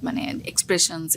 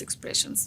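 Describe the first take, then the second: First: Said in the usual way. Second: The word expressions breathed out as a soft unvoiced whisper; whispered echo. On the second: Shown as a demonstration. Actress explaining ad work to interviewer, whispered echo. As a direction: whisper expressions back to yourself.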